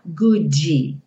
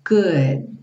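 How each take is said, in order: First: An extra vowel is added after the D sound. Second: The word ends abruptly on the D sound. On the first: The speaker calls it wrong. "Cuidado para não falar goodie" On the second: The speaker calls it right. "consoante oclusiva"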